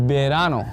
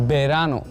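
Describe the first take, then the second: The two takes are said the same way.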